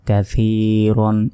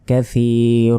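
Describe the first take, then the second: First: The word ends with an n sound. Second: The word ends with a lengthened vowel. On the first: The reading continues without stopping. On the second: The reading stops at this word.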